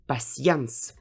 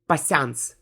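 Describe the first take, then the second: First: The vowel is said as two sounds, y-glide first. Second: The vowel is said as one single sound. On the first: The speaker calls it right. "you always pronounced them with two sounds" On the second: The speaker calls it wrong. "It's not patience"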